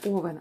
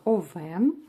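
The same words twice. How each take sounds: First: The stress is on the first syllable. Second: The stress is on the second syllable. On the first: The speaker calls it wrong. "казати не овен" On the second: The speaker calls it right. "правильно українською мовою робити наголос на другі склади"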